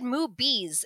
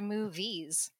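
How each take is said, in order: First: The word is said in a Filipino accent. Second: The word is said in a neutral accent.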